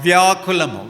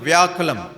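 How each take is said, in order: Both takes have the same delivery.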